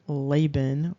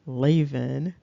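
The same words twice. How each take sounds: First: Laban said slowly as LAY-bun; a clear B in the middle of Laban; B pronunciation. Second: Lavan said as LAY-vun; a V in the middle of Lavan, long A first; V pronunciation. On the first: Listing variants of the word for listeners, B pronunciation. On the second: Listing the alternative form for listeners, V pronunciation. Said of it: "word Laban or". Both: Shown as a demonstration.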